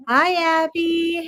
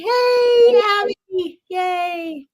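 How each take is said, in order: First: Said in the usual way. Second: Much higher and louder, excited hello; excited greeting. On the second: Real, not acted. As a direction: greet her with a happy squeal. Second greeting to same viewer.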